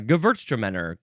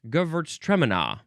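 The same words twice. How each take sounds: First: The stress falls in the familiar, usual place. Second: The stress falls in an unfamiliar, Australian-style place. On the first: This is how the speaker usually hears it. "That's a little bit how I'm more used to it" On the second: This is how it was said at a tasting abroad. "they pronounced it, I believe, Gewürztraminer. Their emphasis was all all sorts of different"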